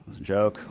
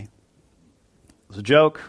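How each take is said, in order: First: Dropped, much softer repeat; quiet aside. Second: Drawn out, rising at the end; slowly explained. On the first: Preacher softly repeating to the congregation, a quiet aside. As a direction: murmur it again to yourself. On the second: Preacher slowly telling the congregation it was a joke. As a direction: spell out that it was only a joke. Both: Real, not acted.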